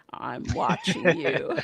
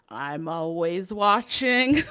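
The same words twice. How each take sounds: First: Slow gravelly monster voice, laughing. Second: Slow, drawn-out watching line; lightly voiced monster; slow creepy quote. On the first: Retold or imitated. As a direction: growl it out slowly. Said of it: "the gravelly voice". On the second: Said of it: "Monsters, Inc, you know".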